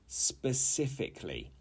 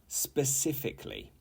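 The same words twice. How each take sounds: No difference in how they are said.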